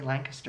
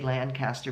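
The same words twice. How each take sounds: First: The name is pronounced the way locals say it. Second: The name is pronounced the way outsiders say it. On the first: The speaker knows the area. The speaker calls it right. "you have to say Lancaster, and then they know what you're talking about" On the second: The speaker is not from the area. The speaker calls it wrong. "if you say Lancaster, people look at you funny"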